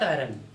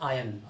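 First: The word is said with an r sound. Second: The word is said without an r sound. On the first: The speaker calls it wrong. "Not आयरन" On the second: The speaker calls it right. "Pronunciation उसका होता है आयन"

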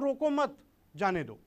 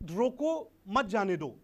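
First: There is a pause after 'mat'. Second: There is a pause after 'roko'. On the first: They should be let go. "रोको मत के बाद हमने एक pause लिया" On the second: They must be stopped. "रोको के बाद मैंने एक स्टॉप लिया है, पॉज लिया है"

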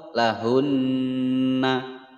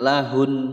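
First: The final n is followed by a vowel a. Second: The final n is cut off short. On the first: "Atau lahunna juga salah" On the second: "jangan lahun, nah, itu salah"

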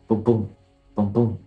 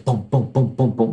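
First: The booms come at a calm, steady heartbeat pace. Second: The booms come quickly in a hurried rhythm. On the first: The motion feels calm and natural. The speaker calls it right. "you want to time that pulsation to a heartbeat, really, is a good" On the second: The motion creates anxiety. The speaker calls it wrong. "which is going to create like anxiety"

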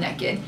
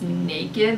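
First: The first vowel sounds more like an E. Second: The first vowel is a standard long A. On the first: The speaker calls it wrong. "I pronounce it more like it's spelled with an E" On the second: The speaker calls it right. "It should be pronounced naked, like with an A"

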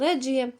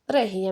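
First: The middle consonant is a j sound. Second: The middle consonant is a hard g sound. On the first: This is how some other people say it. "хтось каже Реджія" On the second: This is how the speaker likes to say it. "мені так подобається казати Регія"

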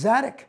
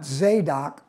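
First: The second syllable does not sound like 'dock'. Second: The second syllable sounds like the word 'dock'. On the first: The speaker calls it right. "I've learned how to pronounce Zadock" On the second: The speaker calls it wrong. "not Zadock. You can dock a boat, but you can't dock Zadock"

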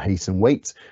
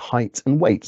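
First: The two words are said so that they rhyme. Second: The two words are said with different vowels. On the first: The speaker calls it wrong. "We don't pronounce it height and weight" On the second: The speaker calls it right. "We pronounce it height and weight"

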